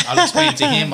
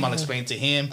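First: Much higher and louder, laughing; laughing at his own calm plan. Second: Said in the usual way. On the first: Retold or imitated. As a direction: burst out laughing on it. Retelling his own thought.

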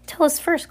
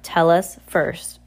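First: High-pitched, insistent demand; firm insistence. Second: Slow, deliberate insistence; firm insistence. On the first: Klaus answers caged Olaf, firmly insisting. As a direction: push back in a much higher voice. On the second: Sunny backs up Klaus against Olaf, insisting firmly. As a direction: draw each word out firmly. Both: A narrator's reading. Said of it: "insisted just as firmly".

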